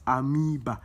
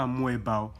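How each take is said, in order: First: Amoeba as "a-MEE-ba", silent O; correct pronunciation. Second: Amoeba with the O sounded, a-MWEH-ba; wrong pronunciation. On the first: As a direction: say amoeba without any O sound, a-mee-ba. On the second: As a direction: say amoeba as "a-mo-eh-ba", voicing the O. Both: Shown as a demonstration. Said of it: "The O is silent".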